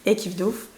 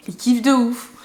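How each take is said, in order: First: Said in the usual way. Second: "kiffent de ouf" punched higher and louder; emphatic repeat. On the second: Real, not acted. Insisting people love the French accent, "de ouf" punched. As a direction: hit "kiffent de ouf" hard and loud.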